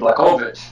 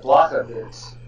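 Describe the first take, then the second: First: The name is pronounced in a Polish-sounding way. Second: The name is pronounced in a Slovak-sounding way. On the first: "that sounds more Polish, and he's Polish" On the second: "it sounds a little bit more, ... Slovakian"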